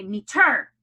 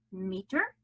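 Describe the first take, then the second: First: "meter" with a loud stress on the second syllable, mee-TER; deliberately misplace the accent in "meter", mee-TER; wrong-syllable stress. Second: "meter" with the first syllable stressed, MEE-ter. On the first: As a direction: punch the end of "meter" hard. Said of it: "no accent on the second". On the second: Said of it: "accent is on the first syllable". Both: Shown as a demonstration.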